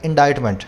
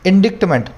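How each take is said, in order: First: No k sound is heard before the t. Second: A k sound is heard before the t. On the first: The speaker calls it right. "सी यहाँ पे silent है मेरे भाई" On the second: The speaker calls it wrong. "कुछ students हैं, खासकर हिंदी वाले, मैं भी बोलता था, इंडिक्टमेंट बोलते हैं"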